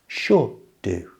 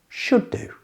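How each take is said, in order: First: The phrase is said slowly and carefully. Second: The phrase is said at normal conversational speed. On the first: "Listen again" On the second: "And at normal speed"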